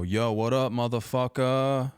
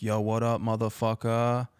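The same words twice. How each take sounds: First: Loud, drawn-out cocky greeting; cocky yell. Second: Mock scream. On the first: Retold or imitated. Kid yelling the insult at his friend's dad, cocky shout. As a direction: shout it across the yard like a big shot. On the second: Dad yelling from his car window at the kid, taunting shout. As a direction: yell it out the car window as a joke. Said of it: "he just screams".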